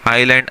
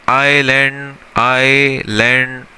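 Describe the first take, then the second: First: Said in the usual way. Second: Stretched slow demo of island; slow model word. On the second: Shown as a demonstration. Teacher stretching island slowly for students. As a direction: say island slowly, drawing out each sound. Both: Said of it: "अब भाई island word है".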